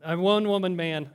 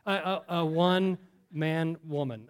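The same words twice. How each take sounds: First: Correcting himself with a laugh. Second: Said in the usual way. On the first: Real, not acted. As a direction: laugh through the fix. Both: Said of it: "gender confusion".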